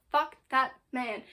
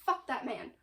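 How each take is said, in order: First: Fuck hit hard, the repeat slowed and a bit louder; slower emphatic repeat. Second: Said in the usual way. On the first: Real, not acted. Reviewer repeating her curse at the Inquisitor, slower and harder. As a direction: lean into the word Fuck, drag it out. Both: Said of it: "We have never had a good Inquisitor".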